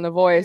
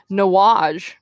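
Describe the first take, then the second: First: The name is said as Navoy. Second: The name is said as Nawaj. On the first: The speaker calls it right. "But it is Kyle Navoy" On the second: The speaker calls it wrong. "I mispronounced it. We played them this weekend calling him Nawaj"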